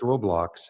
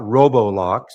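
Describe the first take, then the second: First: The name is said with two syllables. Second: The name is said with three syllables. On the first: The speaker calls it right. "It's Roblox, according to you" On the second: The speaker calls it wrong. "It's not Robolox"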